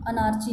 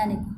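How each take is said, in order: First: ਅਨਾਰਚੀ said with a ch sound; ਅਨਾਰਚੀ spoken a-nar-chee, the mistake to avoid; the wrong way: ਅਨਾਰਚੀ, with ch; wrong pronunciation. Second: Anarchy said "an-a-kee" with a k sound; the right way to say anarchy; correct pronunciation. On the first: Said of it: "ਅਨਾਰਚੀ ਨਹੀਂ ਬੋਲਣਾ". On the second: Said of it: "anarchy ਬੇਟੇ". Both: Shown as a demonstration.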